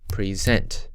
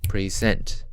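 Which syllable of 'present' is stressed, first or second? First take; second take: second; second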